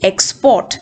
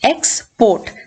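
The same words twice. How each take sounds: First: The stress is on the second syllable. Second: The stress is on the first syllable. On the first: It is used as a verb. "two syllable verbs ആണെങ്കിൽ the stress will fall on the second syllable" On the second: It is used as a noun. "In most two syllable nouns first syllable ആയിരിക്കും stressed"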